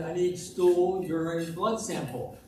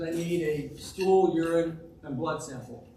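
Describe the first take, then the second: First: Slow, slightly raised repeat; a little louder. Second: Said in the usual way. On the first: Acted. Doctor repeating himself for a patient who missed it, a little louder. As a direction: repeat it slowly, a bit louder. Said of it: "he said a little louder".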